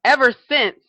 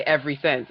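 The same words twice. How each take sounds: First: "Ever since", EVER hit higher and much louder; correct form, emphatic. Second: "every since", with EVERY in place of EVER; mispronounced quote. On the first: Shown as a demonstration. Correcting what people say, emphatic correct form. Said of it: "it's ever". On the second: Retold or imitated. Quoting people's mistake to a friend, mispronounced. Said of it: "that kills when people say".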